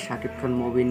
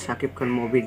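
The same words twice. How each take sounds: The two takes are said the same way.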